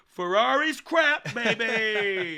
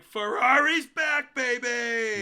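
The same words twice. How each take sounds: First: Loud, slow, high ironic cheer; mock hype. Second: Loud, slow, high hype; hyped cheer. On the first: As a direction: cheer it sarcastically. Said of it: "we're like". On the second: Retold or imitated. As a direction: cheer it like a fan. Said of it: "we're all like".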